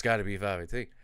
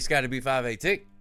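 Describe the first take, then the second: First: The name is said flatly and dismissively. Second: The name is said brightly and enthusiastically. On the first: The person is nothing special. The speaker calls it wrong. "I don't mean to say that like just Scotty B five eighteen" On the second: The person is being celebrated. The speaker calls it right.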